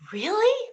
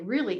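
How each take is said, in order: First: It sounds amazed and full of wonder. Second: It sounds cynical and dismissive.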